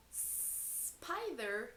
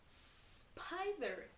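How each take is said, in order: First: Said in the usual way. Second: Spider with the S hissed out clearly; careful full Spider. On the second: Shown as a demonstration. Teacher to kids, crisp clear Spider. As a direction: make the S in Spider ring out. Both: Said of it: "Which one of these".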